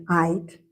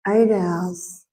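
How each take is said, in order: First: Eight said as "ite", Australian vowel; eight with the vowel of "bite". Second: Said in the usual way. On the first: Shown as a demonstration. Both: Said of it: "I know it's my accent".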